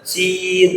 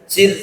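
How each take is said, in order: First: The vowel is held long. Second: The vowel is kept short. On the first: The speaker calls it wrong. "bukan sir" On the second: The speaker calls it right. "Dan itu pendek, tapi sir"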